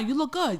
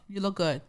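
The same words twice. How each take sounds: First: It is said with more lively reaction. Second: It is said flatly, without emotion. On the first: The compliment seems sincere. "Sometimes you switch up the reaction a little bit" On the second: The compliment seems unfelt. "It's like there's no emotion"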